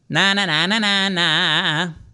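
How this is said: A bright, buzzy, forward twang sound. The speaker calls it right. "He'll sound like this"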